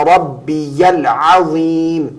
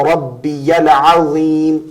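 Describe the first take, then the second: The two takes are said the same way.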